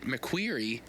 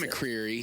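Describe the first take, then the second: First: The name is said with a 'kw' sound. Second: The name is said with a 'cr' sound. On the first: The driver said it this way. "he pronounced it McQueary" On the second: It follows the spelling. "spelled McCreary"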